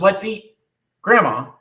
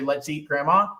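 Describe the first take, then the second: First: There is a pause before grandma. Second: It is said with no pause before grandma.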